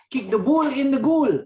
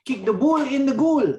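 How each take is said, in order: First: It is said in an imitated African accent. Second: It is said in an imitated African accent.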